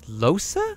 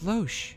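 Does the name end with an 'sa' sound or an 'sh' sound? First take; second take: sa; sh. First: The name ends with an 'sa' sound. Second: The name ends with an 'sh' sound. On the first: The speaker calls it right. "It's Losa?" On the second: The speaker calls it wrong. "I thought it was Loesch"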